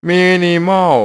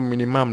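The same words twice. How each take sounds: First: "minimal" drawn out high and loud; higher, louder tentative reading of "minimal"; unsure pronunciation. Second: Said in the usual way. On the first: Real, not acted. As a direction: sound out "minimal" loudly, unsure it is right. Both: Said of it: "มันจะพูด minimum หรือเปล่า".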